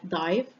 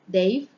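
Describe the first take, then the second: First: The vowel sounds like 'eye'. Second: The vowel sounds like 'ay'.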